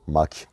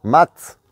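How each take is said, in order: First: "Mac" with a hard final k, low and soft; "Mac" dropped low, ending on a k sound; Mac said clearly. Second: "Mat" with a crisp final t, loud and high; "Mat" stressed, ending on a sharp t; mat said clearly. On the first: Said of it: "c'est du Mac". ("Mac" prononcé bas, k final dur) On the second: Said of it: "C'est du mat, mec, c'est du Mac". ("Mat" bien articulé, t final net) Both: Shown as a demonstration.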